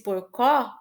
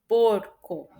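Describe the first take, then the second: First: The stress is on the last syllable. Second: The stress is on the first syllable. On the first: The speaker calls it wrong. "se fosse porcó, aí seria o có" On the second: The speaker calls it right. "o por é mais forte que o co"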